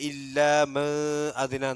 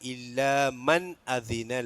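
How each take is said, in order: First: The n sound is hidden and not pronounced. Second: The n sound is pronounced clearly. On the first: The speaker calls it wrong. "എന്നല്ല" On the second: The speaker calls it right. "അവിടെ നൂന് വെളിവാക്കണം"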